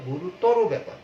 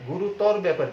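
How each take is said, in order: First: গুরুতর ending in "ro", "gu-ru-taw-ro"; louder, corrected গুরুতর with final "o"; correct final vowel. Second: গুরুতর cut short at "r", "gu-ru-tawr"; wrong গুরুতর without final "o"; rejected pronunciation. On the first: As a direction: sound a clear "o" after the r in গুরুতর. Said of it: "উচ্চারণটা হবে গুরুতর". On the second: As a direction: drop the final vowel of গুরুতর. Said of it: "গুরুতর ব্যাপার কিন্তু না". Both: Shown as a demonstration.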